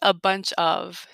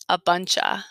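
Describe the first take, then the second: First: Each word is said fully and separately. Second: The words run together in a shortened form. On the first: "it doesn't sound like a bunch of, usually" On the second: "We make it much shorter by saying a bunch of"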